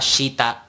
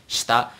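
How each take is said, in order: First: "shita" as shee-ta; full i. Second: "shita" as shta; dropped i. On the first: Teacher shows what it's not, shee-ta. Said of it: "It's not". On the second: Teacher shows this case, shta. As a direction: clip the i out of "shita". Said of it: "in this case it's". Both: Shown as a demonstration.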